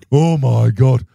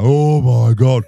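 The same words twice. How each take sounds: First: Panicked mum. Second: Louder, slow panicked dad from upstairs; a hint of a shaken father; startled dad. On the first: Retold or imitated. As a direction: squeal like a frightened mother. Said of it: "My mother". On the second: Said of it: "I can hear my dad upstairs now".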